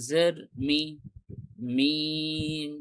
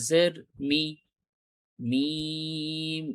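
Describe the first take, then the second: No difference in how they are said.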